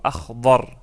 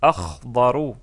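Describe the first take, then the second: First: The word is said without its final ending. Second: The word is said with its full final ending.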